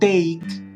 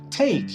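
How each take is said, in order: First: The t is soft, without a breathy burst. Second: The t has a strong breathy burst. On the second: "Tiene un sonido mucho más tss"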